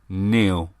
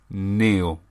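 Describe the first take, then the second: First: The name is said like Neil. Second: The name is said like Neil.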